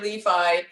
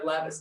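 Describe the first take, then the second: First: The final S is silent. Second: The final S is pronounced. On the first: This is how the name is meant to be said. The speaker calls it right. "I gave her a silent S" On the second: The name is said the way others mistakenly say it, to tease. The speaker calls it wrong. "I call her Levis to wind her up sometimes"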